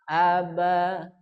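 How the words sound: The word is said on a middle pitch. "kolom kedua dibaca sedang"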